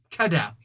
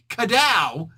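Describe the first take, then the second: First: Said in the usual way. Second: Kadow punched louder and higher; loud sound effect. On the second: Shown as a demonstration. Narrator settles on the sound effect, louder Kadow!. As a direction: belt out Kadow!.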